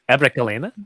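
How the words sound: The voice rises at the end like a question.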